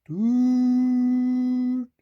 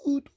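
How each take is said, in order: First: Long high train whistle; drawn-out whistle on one high note; long, sad toot. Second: Short, light train toot; tiny clipped toot. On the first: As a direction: hold the toot like a mournful locomotive. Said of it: "trying to call out the long, sad". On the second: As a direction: give a quick cheery peep of a whistle. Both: A narrator's reading.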